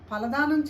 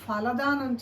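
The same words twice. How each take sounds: First: The first consonant is said without aspiration. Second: The first consonant is said with aspiration. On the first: The speaker calls it wrong. "చేయడం కాదు" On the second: The speaker calls it right. "చేద్దాం"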